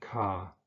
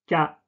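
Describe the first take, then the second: First: The k has a strong puff of air after it. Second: The k has no puff of air after it. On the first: The speaker calls it wrong. "im Deutschen ka" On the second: The speaker calls it right. "Keine Behauchung"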